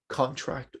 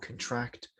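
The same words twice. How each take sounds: First: It carries the noun stress pattern. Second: It carries the verb stress pattern. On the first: It names a thing. "depending on if it is a noun or a verb form" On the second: It names an action. "depending on if it is a noun or a verb form"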